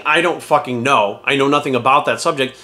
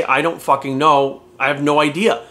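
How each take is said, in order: First: Slow honest admission. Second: Slow, plain "I don't fucking know"; unbothered slow shrug of a line; slow honest admission. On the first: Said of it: "people will respect you more for saying". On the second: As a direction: admit it slowly and flatly. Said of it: "It's okay to say". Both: Shown as a demonstration.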